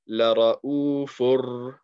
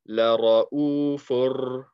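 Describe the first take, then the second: Both takes have the same delivery.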